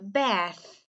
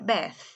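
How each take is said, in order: First: It is said with a smile, lips spread. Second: It is said with a straight face, no smile. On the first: "se você sorrir antes de fazer" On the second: "você pode não sorrir mais, né? Você pode falar sério"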